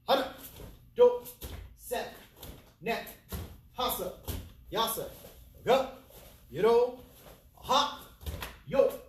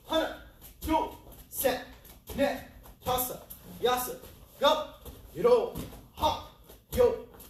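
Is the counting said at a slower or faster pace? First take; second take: slower; faster. First: It is counted at a slower pace. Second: It is counted at a faster pace.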